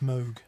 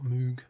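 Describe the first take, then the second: First: The vowel sounds like 'oh', as in vogue. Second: The vowel sounds like 'oo', as in food. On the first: The speaker calls it right. "I guess it's Moga Foga, isn't it? Given that it's Moog" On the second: The speaker calls it wrong. "not Moog"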